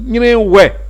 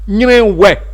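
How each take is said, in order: No difference in how they are said.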